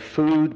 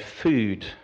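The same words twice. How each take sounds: First: The vowel in 'food' is back and rounded. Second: The vowel in 'food' is fronted, almost French-sounding. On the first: "I say food" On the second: "many people around here say food ... it sounds a little bit French almost"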